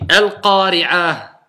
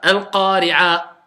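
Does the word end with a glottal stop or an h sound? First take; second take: h sound; glottal stop. First: The word ends with a soft h sound. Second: The word ends with a glottal stop. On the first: The speaker calls it right. "c'est un ha" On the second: The speaker calls it wrong. "j'entends une hamza. Parce que c'est un blocage"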